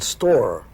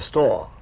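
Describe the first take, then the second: First: The final r is clearly pronounced. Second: The final r is dropped, R-less style.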